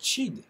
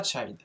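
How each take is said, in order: First: Chid with a short ee-like i. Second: Put-on child with the i said like eye; diphthong i. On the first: Teacher correcting students on the past form, chid with short i. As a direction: say chid, the i as in French. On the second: Teacher showing students the mistaken form, child with eye sound. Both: Shown as a demonstration. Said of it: "C'est pas child".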